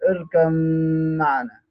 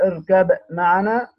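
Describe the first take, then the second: First: The b merges into the following m sound. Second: The b is released clearly with a slight bounce. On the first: "وبالإضغام" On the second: "بالإظهار مع القلقلة طبعا عشان تظهر"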